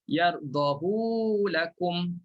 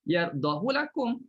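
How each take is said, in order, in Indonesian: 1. Vokal setelah h dipanjangkan. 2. Vokal setelah h tetap pendek. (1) "kalau ikut kaedah kena baca dengan silah" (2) "dibaca tanpa silah"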